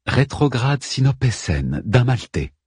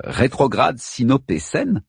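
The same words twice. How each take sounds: First: Said in the usual way. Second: Slow, holding back a nervous laugh; stifled nervous laugh. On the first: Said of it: "reprit Astigche". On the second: A narrator's reading. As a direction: ask it while swallowing a laugh. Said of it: "en réprimant un rire nerveux".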